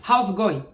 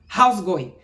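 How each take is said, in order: First: The words are squeezed together into a shortened form. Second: The same.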